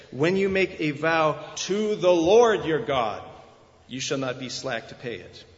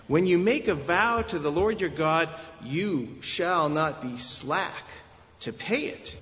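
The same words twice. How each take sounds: First: "to the Lord your God" loud and weighty, the rest falling off; heavy emphasis on "to the Lord your God"; stress on God's name. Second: Deliberate weight on "you shall not be slack", pause before "to pay it"; stress on truthfulness. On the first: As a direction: punch "to the Lord your God", then throw away "slack to pay it". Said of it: "They read them with a different emphasis". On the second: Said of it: "It is on the truthfulness". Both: Shown as a demonstration.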